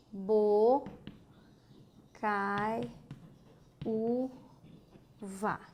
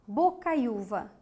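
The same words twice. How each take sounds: First: "bo, cai, u, vá" with long pauses; syllable by syllable. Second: Said in the usual way. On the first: Shown as a demonstration. Teacher closes the rule, "bo, cai, u, vá" split up. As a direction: set each syllable of "bo, cai, u, vá" apart. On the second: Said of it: "E agora?".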